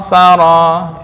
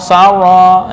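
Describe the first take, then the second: First: The r is a single quick tap. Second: The r sounds soft, almost like w. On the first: The speaker calls it right. "itu getar cukup sekali" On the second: The speaker calls it wrong. "itu juga kurang kurang tepat"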